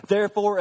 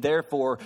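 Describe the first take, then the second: First: Therefore thrown out louder and higher; rising preaching call. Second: Said in the usual way. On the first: Acted. Pastor telling Christians to listen, loud preaching call. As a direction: launch the climax with force. Launching into the climax.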